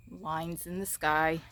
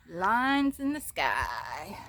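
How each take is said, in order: First: Said in the usual way. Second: Very slow, loud, stretched words; drawn-out exclamation. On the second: Real, not acted. Vlogger showing viewers the lines in the sky, drawn-out exclamation. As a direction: stretch it right out, loudly. Phrase repeated, drawn out for effect.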